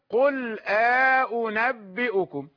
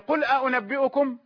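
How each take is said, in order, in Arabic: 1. يفصل بين الهمزتين مدٌّ طويل بالألف. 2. الهمزتان تأتيان متتاليتين مباشرةً. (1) "ويقرأ بالإدخال" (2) "كوجه حفص"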